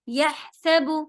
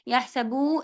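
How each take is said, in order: First: The final vowel is kept short. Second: The final vowel is drawn out long. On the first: The speaker calls it right. "यह हा पे ज़ोर देंगे, सबू बड़ा नहीं होने देंगे" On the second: The speaker calls it wrong. "यहसबू नहीं पढ़ना"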